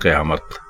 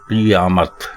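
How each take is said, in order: First: The first vowel is an 'a' sound. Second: The first vowel is an 'i' sound. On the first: The speaker calls it wrong. "काफ के ऊपर जबर डालकर बोलना बिल्कुल गलत है" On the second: The speaker calls it right. "काफ के नीचे जेर है"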